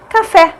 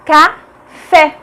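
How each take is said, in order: First: Said in the usual way. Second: "Café" split in two, ca... fé; separated syllables in "Café", stress on the last. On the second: Shown as a demonstration. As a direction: break "Café" with a pause before a strong final fé. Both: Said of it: "Fé é a mais forte".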